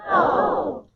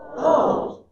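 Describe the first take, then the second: First: It sounds excited. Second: It sounds like sudden understanding.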